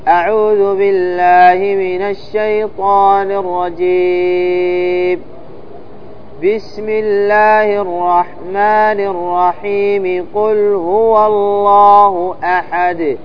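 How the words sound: A pause comes only after 'rajim'. "يصل البسملة بأول السورة ويقطع الاستعاذة عن البسملة"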